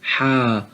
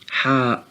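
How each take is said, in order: First: It ends on an open vowel. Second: It ends with a glottal stop. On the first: The speaker calls it right. "In the Holy Quran, we shall say" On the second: The speaker calls it wrong. "we never spell al-hamza that comes at the end of this letter... These are all wrong"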